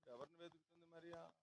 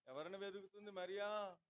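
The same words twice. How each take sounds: First: Softer, musing question; hushed rhetorical question, softer; quiet repeat. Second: Repeated question with Mariya pressed, falling at the end; pressing question. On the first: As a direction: ask it almost to yourself. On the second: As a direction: stress on Mariya, asked firmly. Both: Real, not acted. Preacher repeats question to congregation.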